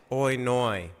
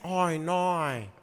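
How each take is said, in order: First: "Oi, noi": each word ending in a Y glide, lower and softer. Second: Drawn-out broad Australian vowels; Australian accent. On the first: Explaining the trick first, "Oi, noi" with Y endings. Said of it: "put a Y at the end". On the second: Adding the accent for co-host, drawn-out Australian. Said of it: "then you do the accent". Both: Shown as a demonstration.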